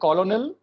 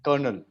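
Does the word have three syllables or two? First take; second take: three; two. First: It is said with three syllables, following the spelling. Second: It is said with two syllables, like 'kernel'. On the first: This is how it is written. "लिखने में कॉलोनल" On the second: This is how it is spoken. "बोलने में कर्नल"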